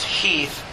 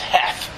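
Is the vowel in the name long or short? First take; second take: long; short. First: The vowel is a long 'ee' sound. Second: The vowel is a short 'e' sound. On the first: "pronounced Heath" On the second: "I've always thought it was Heth, because it's spelled that way"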